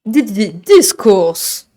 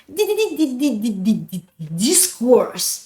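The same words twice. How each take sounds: First: Slow stuttered jingle, stretched final word. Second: Long run of stutters into a drawn-out name; longer jingle version. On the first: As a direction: stutter in, then hold the name long. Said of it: "la proposition de Mogo". (jingle bégayé, très étiré) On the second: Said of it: "on peut faire une, une version". (version longue du jingle, bégayée) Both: Shown as a demonstration.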